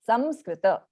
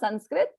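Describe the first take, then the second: First: The nasal before s is an m sound. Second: The nasal before s is an n sound. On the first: The speaker calls it right. "it is Samskrita" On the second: The speaker calls it wrong. "It's not Sanskrit"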